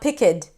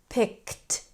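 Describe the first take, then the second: First: The final sound is separated from the word. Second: The final sound is joined to the word. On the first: The speaker calls it wrong. "it's not picked" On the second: The speaker calls it right. "we want to connect it to the sound before"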